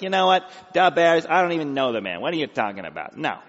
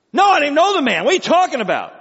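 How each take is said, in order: First: Nasal Chicago denial; Peter with Chicago accent. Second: High, loud, indignant outburst; shouted denial. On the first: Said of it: "what Peter would have sounded like if he grew up in Illinois". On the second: Peter's panicked denial, acted loudly. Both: Acted.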